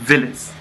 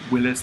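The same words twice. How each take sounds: First: Willis is said with a foreign accent. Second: Willis is said in a plain English way. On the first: "they would say Willis" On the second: "instead of Willis"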